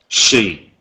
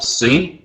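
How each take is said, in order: First: The word begins with an sh sound. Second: The word begins with a plain s sound. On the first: The speaker calls it right. "C is sh, sh, she" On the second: The speaker calls it wrong. "we need to be careful that it's not c"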